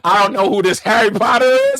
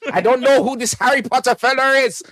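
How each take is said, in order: First: Loud put-on accent, not Scottish; loud, mistaken character accent; wrong accent. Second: High comic Scottish voice; put-on Scottish, pitched up; Scottish accent. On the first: Comedian voicing a Harry Potter hater, wrong accent. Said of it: "wrong accent". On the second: Comedian retrying the eavesdropper's line, Scottish accent. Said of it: "was he Scottish or".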